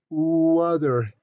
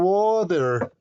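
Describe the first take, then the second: First: The word begins with a lengthened u sound. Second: The word begins with a hard g sound. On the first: The speaker calls it right. "Le alargas la U otra vez" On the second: The speaker calls it wrong. "¿Y cómo se le pro- la pronuncia mucho? Dicen gu, gu, gu, gu, water"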